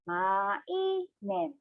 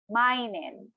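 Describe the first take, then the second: First: It is said slowly, syllable by syllable. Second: It is said at a normal, connected pace.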